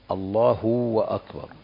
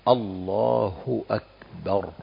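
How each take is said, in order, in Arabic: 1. يُنطق صوت w قبل akbar. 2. لا يُنطق صوت w قبل akbar. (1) "فهذه لا تصح الصلاة" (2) "ننطق بها كالآتي"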